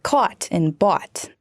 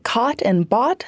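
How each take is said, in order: First: Slow "caught and bought" with the vowel changed to "wa"; shifted vowel. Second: Said in the usual way. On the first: Shown as a demonstration. Reporter showing the Michigan vowel shift on "caught and bought", "wa" sound. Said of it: "replaced with the wa sound". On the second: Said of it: "Then the short o sound".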